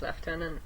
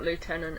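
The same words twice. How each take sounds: First: The first syllable sounds like left. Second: The first syllable sounds like loo. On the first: The speaker calls it right. "It's lieutenant" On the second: The speaker calls it wrong. "it's not lieutenant in England"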